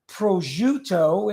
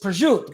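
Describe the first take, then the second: First: It is pronounced the standard, full way. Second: It is pronounced the Italian dialect way. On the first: The speaker calls it wrong. "it's not prosciutto" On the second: The speaker calls it right. "it's prosciutto"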